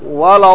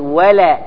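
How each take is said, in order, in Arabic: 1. اللام مغلّظة ومفخّمة. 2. اللام مرقّقة وخفيفة. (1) "ما أقول ولا الضالين ولا الضالين، خطأ" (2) "أقول ولا"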